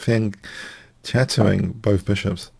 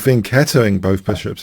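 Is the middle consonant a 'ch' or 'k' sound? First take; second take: ch; k. First: The middle consonant is a 'ch' sound. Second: The middle consonant is a 'k' sound. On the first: "I like to say fianchetto because I like the word cello" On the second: "if you prefer that pronunciation"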